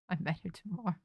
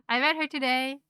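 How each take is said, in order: First: Fast, soft and laughing through "tomorrow"; laughing slip. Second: Laughing correction. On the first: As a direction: laugh at your own slip. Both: Real, not acted.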